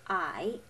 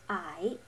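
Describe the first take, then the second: First: The pitch dips down then rises. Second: The same.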